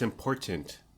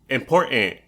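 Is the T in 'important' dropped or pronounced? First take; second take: pronounced; dropped. First: The T sound is clearly pronounced. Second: The T sound is dropped. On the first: The speaker calls it right. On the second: The speaker calls it wrong.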